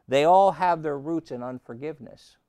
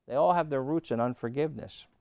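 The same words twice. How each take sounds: First: ALL hit loud and high; stressed proclamation. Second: Said in the usual way. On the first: Shown as a demonstration. Preacher proclaiming to the church, punching all loudly. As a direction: punch the word all for the crowd.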